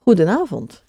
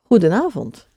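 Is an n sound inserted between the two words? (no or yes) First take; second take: yes; yes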